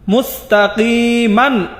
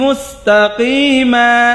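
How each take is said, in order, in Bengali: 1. শব্দটি শেষে একটি ন ধ্বনি দিয়ে শেষ হয়। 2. শব্দটি একটি দীর্ঘ স্বরধ্বনি দিয়ে শেষ হয়, কোনো ন নেই।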